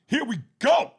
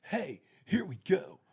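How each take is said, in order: First: Here we go shouted high and loud; big theatrical delivery. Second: Laid-back delivery. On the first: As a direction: belt it out like a hammy actor. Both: Retold or imitated. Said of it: "if I had to choose between".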